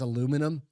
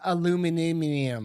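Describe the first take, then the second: First: It is said the American way, four syllables. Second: It is said the British way, five syllables.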